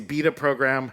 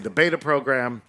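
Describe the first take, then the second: First: Beta is said with a British accent. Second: Beta is said with a non-British accent.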